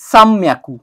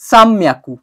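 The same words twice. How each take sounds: First: An m sound comes before the m. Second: The same.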